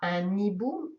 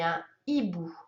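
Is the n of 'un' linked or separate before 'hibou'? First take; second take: linked; separate. First: The n sound links into hibou. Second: The n sound stays separate from hibou. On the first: The speaker calls it wrong. "Je ne dis pas un hibou" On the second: The speaker calls it right. "mais un hibou"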